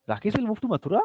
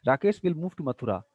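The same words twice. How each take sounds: First: Higher, with "Mathura" turned up; statement as question. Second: Said in the usual way. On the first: Shown as a demonstration. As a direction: doubt it with a questioning lift on "Mathura". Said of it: "Like this". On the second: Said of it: "Statements will act as".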